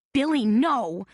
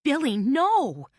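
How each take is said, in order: First: High, loud plea; pleading. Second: High, loud, slow cry of protest. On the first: Carmela pleads with Billy not to betray her. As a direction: beg him to stop. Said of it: "Carmela pleaded". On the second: Carmela cries out to Billy, slow and loud. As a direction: draw out the plea in dismay. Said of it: "cried Carmela". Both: A narrator's reading.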